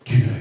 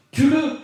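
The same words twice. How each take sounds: First: Said in the usual way. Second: "Tue-le" shouted high and loud, pressing hard; "Tue-le" cried out high and loud like an eager soldier; urgent shout. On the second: Retold or imitated. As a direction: yell "Tue-le" as if to force his hand. Soldiers urge David to kill.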